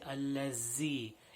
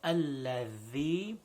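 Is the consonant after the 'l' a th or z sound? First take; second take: z; th. First: The consonant is pronounced as a z sound. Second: The consonant is pronounced as a th sound. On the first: The speaker calls it wrong. "most common mistake is people say الذي. It is not a za sound" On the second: The speaker calls it right. "it is a tha sound"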